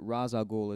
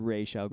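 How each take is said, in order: First: The first word does not end in 'sh'. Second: The first word ends in an 'sh' sound. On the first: The speaker calls it wrong. "is the incorrect pronunciation" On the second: The speaker calls it right. "That's how Paul Dini pronounces it"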